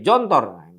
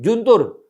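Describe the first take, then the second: First: It starts with j and has o vowels. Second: It starts with j and has u vowels. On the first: "dibaca orang Indonesia bisa jadi" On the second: "ditulis pakai jim"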